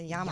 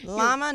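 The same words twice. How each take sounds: First: The word is said with a Spanish pronunciation. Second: The word is said with an English pronunciation. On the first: The speaker calls it right. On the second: The speaker calls it wrong.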